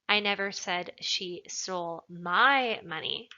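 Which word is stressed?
my. The word 'my' is emphasized. She took someone else's money. "Implies that maybe she took somebody else's money"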